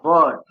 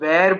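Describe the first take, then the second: First: The vowel sounds like 'er'. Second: The vowel sounds like 'air'. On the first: The speaker calls it right. "But the right pronunciation is वर" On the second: The speaker calls it wrong. "कई लोग इसको वेर बोलते हैं"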